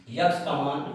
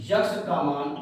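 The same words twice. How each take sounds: The two takes are said the same way.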